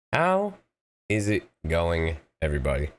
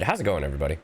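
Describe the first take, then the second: First: A playful, slowed re-ask of How is it going, everybody; drawn-out greeting. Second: Said in the usual way. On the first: Shown as a demonstration.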